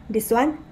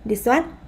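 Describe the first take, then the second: Both takes have the same delivery.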